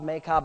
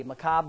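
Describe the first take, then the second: First: "Makob" as MAY-kob; alternative pronunciation. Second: "Makob" as muh-KOB; tentative pronunciation. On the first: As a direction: try "Makob" with first syllable like "may". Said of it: "exactly how they say that". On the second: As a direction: try "Makob" with a short unstressed first syllable. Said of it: "I don't know how". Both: Real, not acted.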